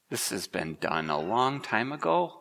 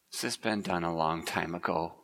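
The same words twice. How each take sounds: First: Sarah doubting, the weight falling on "ago"; stress on ago. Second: Low and soft, punch the word "has"; stress on has. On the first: Elderly Sarah doubting God's promise, stress on "ago". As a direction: lean on the word "ago", letting it land last and longest. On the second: Preacher repeats Sarah's doubt, low and soft, stress on "has". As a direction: quieter retake, the weight moved onto "has". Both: Shown as a demonstration.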